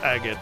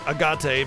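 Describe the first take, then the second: First: It is said with English pronunciation. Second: It is said with Japanese-style pronunciation. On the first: The speaker calls it right. "But it's agate" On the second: The speaker calls it wrong. "that would be the J Japanese pronunciation of it"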